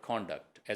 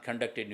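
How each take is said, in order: First: Conduct with stress on the first syllable; conduct as noun. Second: Conducted with stress on the second syllable; conducted with a reduced first vowel; conduct as verb. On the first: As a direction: say conduct slowly as "KON-duct". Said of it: "as a noun conduct ہو گیا". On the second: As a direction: say conducted as "kun-DUCT-ed". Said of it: "یہی چیز جو ہے وہ کنڈکٹ کی بھی ہے". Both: Shown as a demonstration.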